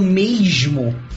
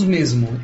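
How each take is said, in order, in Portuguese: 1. Ela é falada com sotaque carioca. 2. Ela é falada com sotaque paulistano. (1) "no Rio de Janeiro eles falam mesmo" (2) "Nós falamos mesmo"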